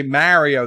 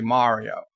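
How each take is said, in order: First: Mario with the A of "marry"; flat A. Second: Mario with an open "ah", "MAH-rio". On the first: Host shows the criticised way, Mario as "MARRY-o". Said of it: "they get upset". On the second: Host shows what viewers want, Mario as "MAH-rio". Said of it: "They want me to say". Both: Shown as a demonstration.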